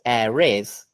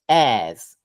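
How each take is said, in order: First: The words are said as two syllables. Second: The words are contracted into one syllable. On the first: "instead of saying air is" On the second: "we would just say this, airs"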